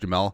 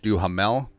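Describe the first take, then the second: First: The h sound in the middle is silent. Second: The h sound in the middle is pronounced. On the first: The speaker calls it right. "because the ha is silent" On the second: The speaker calls it wrong. "I called him"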